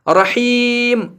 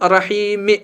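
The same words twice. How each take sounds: First: The word ends on a bare final m sound. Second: The word ends with a short added i vowel. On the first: The speaker calls it right. "इसको जेर नहीं बल्कि जज्म मानेंगे और अब इसको पढ़ेंगे रहीम" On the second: The speaker calls it wrong. "न कि रहीम"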